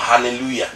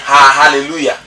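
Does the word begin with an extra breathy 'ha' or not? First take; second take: no extra; extra ha. First: The word starts cleanly with no added 'ha'. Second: An extra breathy 'ha' is added at the start. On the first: The speaker calls it right. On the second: The speaker calls it wrong.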